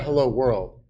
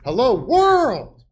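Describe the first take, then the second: First: It is said flatly, without emphasis. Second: It is said excitedly, with strong emphasis.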